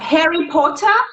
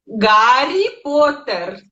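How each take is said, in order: First: The name begins with an H sound. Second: The name begins with a G sound. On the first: "o nosso H que tem em português ou em inglês" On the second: "a gente substitui pelo G"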